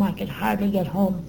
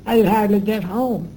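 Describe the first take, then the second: First: Said in the usual way. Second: "I could hardly get home" repeated louder, leaning on "could"; emphatic repeat. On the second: Real, not acted. Stressing to the interviewer how drained she was, emphatic. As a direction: press on "could" as she says it again.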